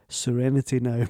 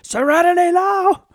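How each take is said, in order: First: It is said calmly and quietly. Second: It is screamed at full volume.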